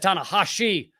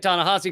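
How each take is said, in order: First: The name is said with a sh sound. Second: The name is said without a sh sound. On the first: "He's got an S H in there" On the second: "I've heard people say"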